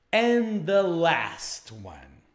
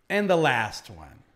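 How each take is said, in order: First: Very slow, stretched-out "And the last one"; slow drawn-out. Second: Said in the usual way. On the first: Shown as a demonstration. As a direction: draw out "And the last one" word by word. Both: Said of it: "teacher repeats phrase twice".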